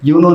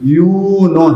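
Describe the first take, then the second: First: The first vowel is short, like English 'you know'. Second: The first vowel is held long. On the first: The speaker calls it wrong. "इसको तो English वाला यू नो जैसे बोल देते हैं, सो वो गलत है।" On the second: The speaker calls it right. "यू नो है।"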